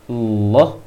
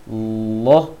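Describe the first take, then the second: No difference in how they are said.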